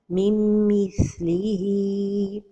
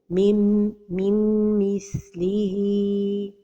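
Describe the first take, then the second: First: The nasal merge is clipped with no hold. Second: A separate n sound is pronounced before the m. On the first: "without a time for the ghunna" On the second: "pronounce the noon"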